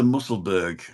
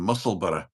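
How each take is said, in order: First: It is said in an English accent. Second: It is said in a Scottish accent.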